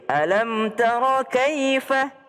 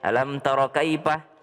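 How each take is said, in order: First: The last syllable starts with an f sound. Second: The last syllable starts with a p sound. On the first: The speaker calls it right. "Tidak ada p di dalam Al-Qur'an" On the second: The speaker calls it wrong.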